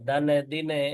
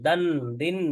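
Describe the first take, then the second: First: Each syllable ends with an extra released vowel. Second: Each syllable ends on a held nasal, no vowel. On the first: The speaker calls it wrong. "এরকম না" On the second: The speaker calls it right. "চাপ দিয়ে ধরতে হবে"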